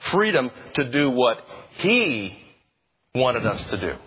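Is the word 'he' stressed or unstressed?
stressed. The word he carries strong stress.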